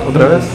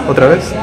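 Both takes have the same delivery.

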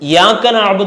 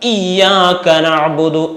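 First: The word starts directly with a y sound. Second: The word starts with a clear i vowel. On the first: The speaker calls it wrong. "അതില്ലാതെ യാക നഅ്ബുദു" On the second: The speaker calls it right. "ഇ എന്ന് ശരിക്ക് കേൾക്കന്നെ വേണം"

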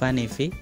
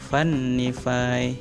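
First: The n sound is short and plain. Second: The n sound is doubled and held long. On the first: "Vanify untuk penganut wifi" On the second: "kalau dibaca secara tartil Vanify, nunnya dua ya, guna"

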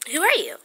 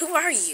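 First: It is asked in a softer, polite tone. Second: It is asked in an abrupt, rude tone.

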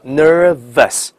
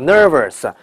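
First: Only the first syllable has a curled r. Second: The ending is also said with a curled r. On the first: The speaker calls it right. "卷舌后面不卷" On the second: The speaker calls it wrong. "全错"

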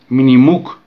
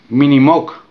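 First: The last syllable has an 'oo' vowel. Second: The last syllable has an 'o' vowel. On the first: The speaker calls it right. "Se pronuncia realmente Minimuk" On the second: The speaker calls it wrong. "no Minimok"

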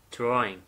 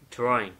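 No difference in how they are said.

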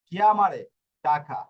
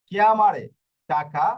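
No difference in how they are said.

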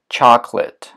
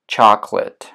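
No difference in how they are said.

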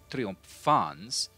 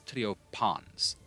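First: The ph is changed to a different sound. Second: The ph is a p with a breath. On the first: The speaker calls it wrong. "it's not triumphans" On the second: The speaker calls it right. "it is triopans"

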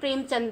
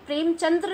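First: The name ends without the extra 'ra' syllable. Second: The name ends with an extra 'ra' syllable. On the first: The speaker calls it right. "ये प्रेमचंद हैं" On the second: The speaker calls it wrong. "ये प्रेमचंद्र नहीं है"

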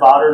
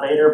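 First: The first vowel is an 'ah' sound. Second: The first vowel is an 'ay' sound. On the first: The speaker calls it right. "I pronounce it Vodder" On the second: The speaker calls it wrong. "not Vader"

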